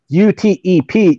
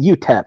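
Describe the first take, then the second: First: It is spelled out letter by letter. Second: It is said as a single word. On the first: The speaker calls it wrong. "you don't call them" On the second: The speaker calls it right. "You call them ... You pronounce the fucking name"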